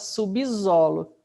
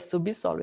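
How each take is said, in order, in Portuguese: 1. A consoante do meio soa como z. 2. A consoante do meio soa como s. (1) "Ninguém fala subsolo" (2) "É subsolo"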